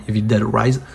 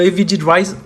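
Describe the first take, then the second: First: "Dead" said clearly as "dèd", the correction; corrected pronunciation. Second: "Evil Dead" with "Dead" said like "did"; first mispronunciation. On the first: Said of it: "J'aurais dit Evil Dead, excusez-moi". ("Dead" prononcé correctement "dèd") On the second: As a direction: slip "Dead" into an English "did" sound. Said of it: "pourquoi j'ai dit Evil Dead avant?". ("Dead" prononcé comme "did") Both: Real, not acted.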